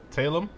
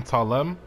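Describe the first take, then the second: First: "Talem" said TAY-lem, questioning; second-guess pronunciation. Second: "Talem" said tah-LEM, rising; first-guess pronunciation. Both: Real, not acted. Trying out an unfamiliar name.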